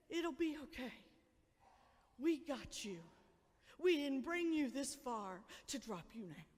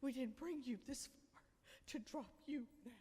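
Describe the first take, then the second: First: Softer, lower, gentle; reassuring. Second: Softer, nearly hushed; hushed reassurance. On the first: Parents reassuring frightened kids, gentle reassurance. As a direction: comfort a frightened child. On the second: Parent soothing an afraid child, hushed reassurance. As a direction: say it again, closer and gentler. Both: Acted. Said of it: "to say".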